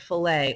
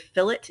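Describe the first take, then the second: First: It is pronounced with French sound rules. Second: It is pronounced with English sound rules. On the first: "the Frenchy way" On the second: "They'll say fillet instead of"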